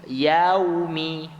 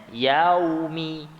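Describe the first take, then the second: Both takes have the same delivery.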